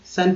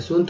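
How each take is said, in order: First: "सन" with a short uh vowel; "सन", rhyming with English fun; u read as अ. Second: "सुन" with an oo vowel; "सुन", vowel as in book; rejected reading. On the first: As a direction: say "सन" with अ in the middle. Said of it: "यू को अ पढ़ा गया है". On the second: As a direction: say "सुन" with उ, as the misreading. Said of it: "सुन थोड़ी पढ़ेंगे". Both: Shown as a demonstration.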